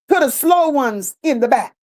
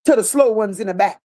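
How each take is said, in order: First: Slowed for emphasis. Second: Said in the usual way. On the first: Real, not acted.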